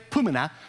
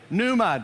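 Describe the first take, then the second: First: A vowel is inserted between the p and n. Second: The p and n run together with no vowel. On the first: The speaker calls it wrong. "Don't say pumina" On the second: The speaker calls it right. "I want you to say pneuma"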